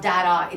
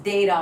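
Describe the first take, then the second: First: Data as "dadda", vowel as in cat; short-A variant. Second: Data as "day-da"; long-A variant. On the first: Teacher quotes the rejected version, short A. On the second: Teacher quotes the insisted-on version, long A. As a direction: open data with the vowel of day. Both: Retold or imitated. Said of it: "No, it's both".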